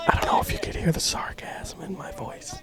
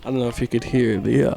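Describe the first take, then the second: First: Hushed, voiceless whisper into the mic; put-on ASMR whisper. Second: Said in the usual way. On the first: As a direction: whisper it like a mock ASMR video. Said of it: "Does it sound like A S M R".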